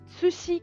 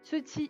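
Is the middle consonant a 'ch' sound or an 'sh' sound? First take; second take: sh; ch. First: The middle consonant is a soft 'sh' sound. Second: The middle consonant is a 'ch' sound. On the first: The speaker calls it wrong. "des fois dans la VF, ils disent Tsushi Kage et pas Tsuchi" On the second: The speaker calls it right. "c'est Tsuchi, hein, pas Tsushi"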